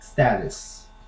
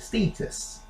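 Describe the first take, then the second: First: It is said with an American accent. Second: It is said with a British accent.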